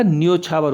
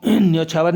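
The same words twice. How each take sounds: First: न्योछावर as "nyo-chhaavar", round o; correct form demo. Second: न्योछावर with middle vowel shifted, "nyau-chhaavar"; wrong form demo. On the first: Teacher correcting children, न्योछावर as nyo-chhaavar. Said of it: "एक मात्रा आएगी". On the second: Teacher showing the error, न्योछावर as nyau-chhaavar. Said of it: "न्योछावर नहीं होता". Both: Shown as a demonstration.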